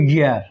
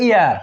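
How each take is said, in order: First: গিয়ার beginning on a hard Y glide, almost j; year, consonant Y. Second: ইয়ার beginning on a pure I vowel; ear, vowel start. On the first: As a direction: say গিয়ার as year with a tightened Y onset. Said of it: "ওয়ার উচ্চারণ হবে". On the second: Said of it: "আর হলো গিয়ার". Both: Shown as a demonstration.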